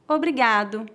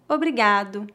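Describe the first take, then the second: The two takes are said the same way.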